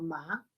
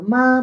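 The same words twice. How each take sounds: First: The pitch rises. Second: The pitch stays high and level. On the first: It means hemp. "en segundo tono ma" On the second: It means mother. "en primer tono ma"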